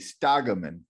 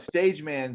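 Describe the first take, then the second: First: The name is said in a European-sounding way. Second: The name is said with a plain English pronunciation. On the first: The product seems carefully thought through. The speaker calls it right. "it seemed better as a European kind of thing" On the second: Something weird seems to be happening. The speaker calls it wrong. "stage man seems like something weird's happening"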